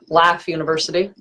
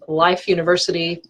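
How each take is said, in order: First: It is said in an Atlanta Southern accent. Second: It is said in the speaker's standard accent.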